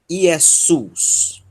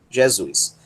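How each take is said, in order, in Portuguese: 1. Começa com vogal e tem som de s. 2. Começa com consoante e tem som de z. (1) "Mas em grego, Iesus" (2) "o S intervocálico vira Z. Então nós temos Jesus"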